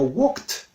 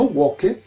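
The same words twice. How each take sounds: First: The ending is a short 't' sound, no syllable. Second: The ending is an extra syllable, like 'id'. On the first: The speaker calls it right. "sino walked" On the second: The speaker calls it wrong. "no walked"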